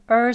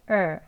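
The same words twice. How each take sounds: First: The er sound is said with stress. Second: The er sound is said without stress. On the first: "강세를 가지고 있는 er 소리" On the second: "강세가 없는 경우에 er 하는 소리"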